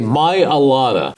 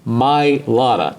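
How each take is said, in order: First: The name has an extra vowel, four syllables. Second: The name skips that vowel, three syllables. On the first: The speaker calls it wrong. "Too many people say my Alada" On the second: The speaker calls it right. "Forget the A, it's my Lada"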